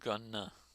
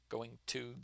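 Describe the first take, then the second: First: It is run together into one reduced word. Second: It is said as two full words. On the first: "it becomes gonna" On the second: "You put going to together"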